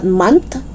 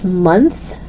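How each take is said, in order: First: "month" as "munt"; hard T closing "month". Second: Tongue out to close "month"; TH sound. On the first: Teacher showing learners the mistake, "month" with final T. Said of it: "It's not month". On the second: Teacher correcting learners, "month" with clear TH. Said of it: "It's month". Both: Shown as a demonstration.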